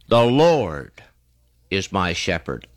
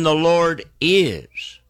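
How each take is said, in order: First: The stress is on Lord. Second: The stress is on is.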